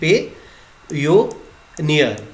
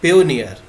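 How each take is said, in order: First: Each syllable is said separately with breaks. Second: All syllables are joined in one smooth word.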